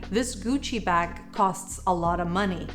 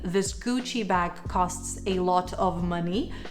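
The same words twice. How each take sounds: First: 'A lot of' blends into 'alotta'. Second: Each word of 'a lot of' is said separately. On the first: "you could say" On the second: "instead of saying"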